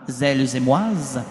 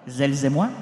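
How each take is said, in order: First: An extra s sound is added after moi. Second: Moi ends cleanly with no added s sound. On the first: The speaker calls it wrong. "Comment, la liaison?" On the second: The speaker calls it right. "Oui, pas de S"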